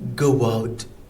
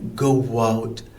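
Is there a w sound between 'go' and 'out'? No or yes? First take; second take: yes; yes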